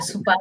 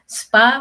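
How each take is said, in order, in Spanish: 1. Una vocal separa las primeras dos consonantes. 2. Las primeras dos consonantes se dicen juntas.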